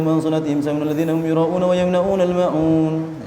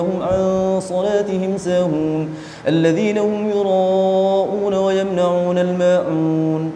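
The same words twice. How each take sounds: First: Fast, with the nasal sounds slurred and cut. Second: Fast, with the nasal sounds held fully. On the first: The speaker calls it wrong. "dengung-dengungnya sudah enggak karuan" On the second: The speaker calls it right. "meskipun cepat tetap memperhatikan hukum-hukum tajwidnya"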